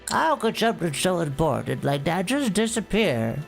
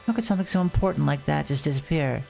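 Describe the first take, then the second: First: Spoken in a put-on old woman's voice. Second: Spoken in a voice unlike an old woman's. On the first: The speaker calls it right. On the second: The speaker calls it wrong.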